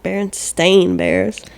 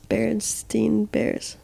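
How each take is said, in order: First: The last syllable of the name rhymes with 'rain'. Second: The last syllable of the name rhymes with 'fine'. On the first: This is how the name is given now. "Not the fucking Beren, Berenstain Bears" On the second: This is how the name was remembered from childhood. "it was called it the Berenstein Berens, Berenstein Bears"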